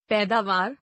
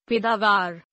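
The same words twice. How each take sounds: First: Said in the usual way. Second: पैदावार with narrow e, "pedaavaar"; mispronounced. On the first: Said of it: "शुद्ध". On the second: Shown as a demonstration. Teacher showing an e error, mispronounced with narrow e. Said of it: "अशुद्ध".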